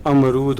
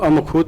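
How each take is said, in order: First: अमरूद with r and long oo; the right form अमरूद, r instead of kh; corrected word. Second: अमखूद with "khood" in place of "rood"; the wrong form अमखूद, ending in -khood; misread word. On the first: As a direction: say अमरूद, ending clearly in -rood. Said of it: "अमरूद होता है". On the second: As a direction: say अमखूद, with kh replacing the r. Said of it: "अमखूद नहीं होता". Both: Shown as a demonstration.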